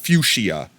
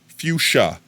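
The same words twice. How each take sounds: First: The word is said with more than two syllables. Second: The word is said with exactly two syllables. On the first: The speaker calls it wrong. "It's not fuchsia" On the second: The speaker calls it right. "Two syllables"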